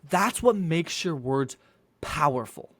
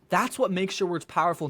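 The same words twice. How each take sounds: First: The sentence is followed by a silent pause. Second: The sentence runs straight on without pause. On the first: The words carry weight. The speaker calls it right. "When you have these areas for silence, it makes your words powerful" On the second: The words lose their force. The speaker calls it wrong. "That is why you need to continue speaking and always pause"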